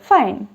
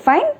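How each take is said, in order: First: The voice falls at the end. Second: The voice rises at the end.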